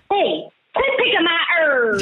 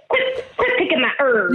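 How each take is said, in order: First: Higher-pitched mock telling-off; angry herb owner. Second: Mock Southern twang; overdone Southern telling-off; too Southern. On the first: Host corrects her impression of the herb owner, mock scolding. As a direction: call out like a cross neighbour. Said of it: "No, it was like". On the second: Host takes her cue to imitate herb owner, too Southern. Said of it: "that was too Southern".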